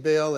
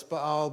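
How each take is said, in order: First: Baal said as BALE; everyday pronunciation. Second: Baal said as bah-AHL; two open "ah" vowels in Baal, bah-AHL; correct pronunciation. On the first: Preacher admitting his pronunciation, Baal said as BALE. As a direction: say Baal to rhyme with "pail". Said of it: "everybody pronounces it Baal". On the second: Preacher correcting himself to congregation, Baal said as bah-AHL. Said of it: "I'm saying Baal, it's Baal". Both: Shown as a demonstration.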